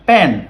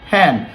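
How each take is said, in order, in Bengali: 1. "p"-এর সঙ্গে কোনো বাতাসের ফুঁ নেই। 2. "p"-এর সঙ্গে বাতাসের ফুঁ আছে।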